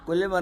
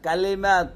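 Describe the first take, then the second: First: The first vowel sounds like 'o'. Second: The first vowel sounds like 'a'. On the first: The speaker calls it wrong. "কলিমা না" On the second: The speaker calls it right. "না কালিমা"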